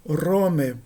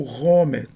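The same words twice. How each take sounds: First: "Rome" with a tapped front R; tongue-tip R. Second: "Rome" with a guttural back R, like Brazilian rr; throaty R. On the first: Teacher offers the first accepted pronunciation, tapped R. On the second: Teacher offers the second accepted pronunciation, throaty R. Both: Shown as a demonstration. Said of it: "tanto faz a pronúncia".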